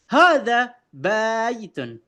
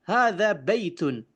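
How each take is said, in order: First: The vowels in baitun are drawn out long. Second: The vowels in baitun are short. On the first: The speaker calls it wrong. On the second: The speaker calls it right.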